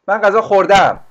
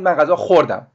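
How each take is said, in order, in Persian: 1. فعل در هجای دوم تکیه دارد. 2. فعل در هجای اول تکیه دارد. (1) "تشدیدمون یا اون استرسمون میره به بخش دو" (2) "خش رو تشدید میدیم"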